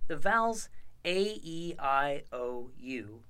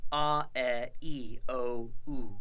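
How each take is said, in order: First: Vowels A, E, I, O, U said as English letter names. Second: A, e, i, o, u as pure Latin vowels, ah eh ee oh oo; pure open vowels: a as ah, e as eh, i as ee, o as oh, u as oo; Latin vowel sounds. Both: Shown as a demonstration. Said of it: "are pronounced in this system".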